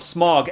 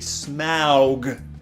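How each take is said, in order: First: The name is said like the word smog. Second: The name is said as Smaug, not smog. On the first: The speaker calls it wrong. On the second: The speaker calls it right.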